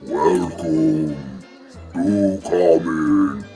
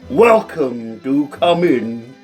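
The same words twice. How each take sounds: First: The voice sounds deep and rumbling. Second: The voice sounds weak and wimpy.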